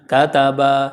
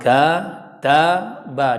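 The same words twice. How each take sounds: First: The final vowel is drawn out longer. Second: All vowels are equally short. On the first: The speaker calls it wrong. "huruf terakhirnya jadi panjang" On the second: The speaker calls it right. "durasinya sama"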